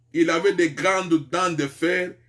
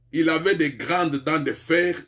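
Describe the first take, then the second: No difference in how they are said.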